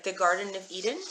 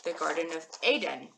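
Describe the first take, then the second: First: EDEN said EE-den in "the Garden of Eden"; English pronunciation. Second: ADEN said AY-den in "the Garden of Aden"; Hebrew pronunciation. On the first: Teacher giving the English example, EDEN as EE-den. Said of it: "So in English". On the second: Teacher giving the Hebrew version, ADEN as AY-den. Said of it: "In Hebrew". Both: Shown as a demonstration.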